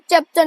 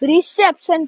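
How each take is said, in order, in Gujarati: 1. આ શબ્દ કોઈ r અવાજ વિના શરૂ થાય છે. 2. આ શબ્દ સ્પષ્ટ r અવાજથી શરૂ થાય છે. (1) "ઇચેપ્શન નહીં" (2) "એટલે રિસેપ્શન કહેવાય"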